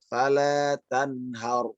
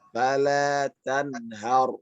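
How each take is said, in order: No difference in how they are said.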